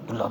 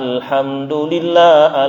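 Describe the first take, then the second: First: Only a short clipped fragment is said quickly. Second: The whole phrase is said clearly in full. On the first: The speaker calls it wrong. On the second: The speaker calls it right.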